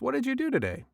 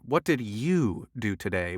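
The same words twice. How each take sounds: First: The stress falls on the word do. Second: The stress falls on the word you.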